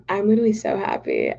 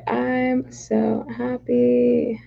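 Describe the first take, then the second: First: Said in the usual way. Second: Very slow, stretched out; drawn-out happy. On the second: Real, not acted. Streamer repeating her joy slowly to chat. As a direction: savour each word slowly.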